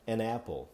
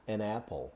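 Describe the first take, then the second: First: The two words run together as one. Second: The two words run together as one.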